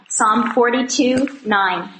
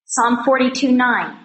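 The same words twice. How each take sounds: First: Psalm forty-two nine said slowly, each number spaced out; slow repeat. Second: Said in the usual way. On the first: Shown as a demonstration. Repeating the reference slowly for those still turning pages. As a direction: spell out the reference slowly so they can find it. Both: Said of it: "repeats reference for listeners".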